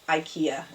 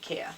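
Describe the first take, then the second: First: It is pronounced the American way. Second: It is pronounced a non-American way. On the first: "as you say it in America" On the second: "but we say IKEA"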